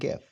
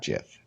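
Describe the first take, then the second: First: The word starts with a hard G sound. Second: The word starts with a J sound. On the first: The speaker calls it right. "there's my argument for it being GIF" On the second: The speaker calls it wrong. "and not GIF"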